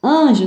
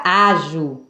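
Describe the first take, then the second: First: Anjo with the An through the nose; nasal vowel. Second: Ajo with a purely oral first vowel; slow ajo, no sound through the nose; nasal removed. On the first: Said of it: "Com o som nasal". (Anjo com som nasal) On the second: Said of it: "se eu retirar o N". (ajo sem som nasal) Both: Shown as a demonstration.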